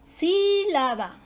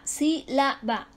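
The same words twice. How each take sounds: First: "Sílaba" with a high, long sí; stress third-from-last. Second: "sílaba" counted out as sí, la, ba; teacher's spaced syllables in "sílaba"; divided into syllables. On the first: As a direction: stretch and lift the first syllable of "Sílaba", slowly. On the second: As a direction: break "sílaba" slowly into three even beats. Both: Shown as a demonstration. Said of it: "Esdrújula".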